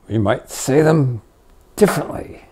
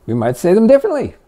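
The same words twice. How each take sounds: First: Whispered ending. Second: Quick higher take. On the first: Teacher demoing a whispered version of the phrase. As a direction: drop to a whisper on differently. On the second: Teacher demoing a different delivery, quick and higher. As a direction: say it fast and higher. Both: Shown as a demonstration.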